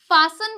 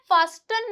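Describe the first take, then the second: First: No t sound is heard after the s. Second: A t sound is heard after the s. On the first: The speaker calls it right. "फासन बोलते हैं" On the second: The speaker calls it wrong. "फास्टन नहीं बोलते"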